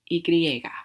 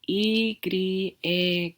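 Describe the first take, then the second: First: It is said quickly. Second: It is said slowly and carefully. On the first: "so faster is" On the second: "Sounds like this"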